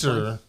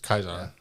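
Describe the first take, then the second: First: The word begins with an S sound. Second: The word begins with a K sound.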